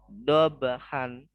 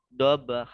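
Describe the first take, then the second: First: The word ends with an n sound. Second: The word ends with a long vowel. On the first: The reading continues past this word. "kalau umumnya kan dobhan" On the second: The reader stops at this word. "kalau dia diwakofkan jadi dobha"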